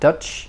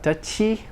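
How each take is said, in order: First: The word ends cleanly on the ch sound. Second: An extra vowel follows the final ch sound. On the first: The speaker calls it right. "there's no u or e added" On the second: The speaker calls it wrong. "not Dutchy"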